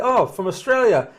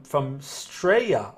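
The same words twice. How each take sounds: First: Higher, louder jokey Australian take on from Australia; playful mock Australian accent. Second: Said in the usual way. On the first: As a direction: say it like a cheery Aussie. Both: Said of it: "That's my Australian accent".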